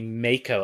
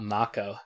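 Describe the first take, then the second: First: It is pronounced as the spelling suggests in English. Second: It is pronounced with the original Japanese reading. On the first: This is the familiar pronunciation from the game's release. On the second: This is the pronunciation the original word implies.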